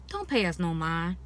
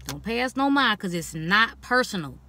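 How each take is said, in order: First: Said in the usual way. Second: Firmer, stressed repeat of "Don't pay us no mind"; emphatic repeat. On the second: Real, not acted. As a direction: lean into mind and insist.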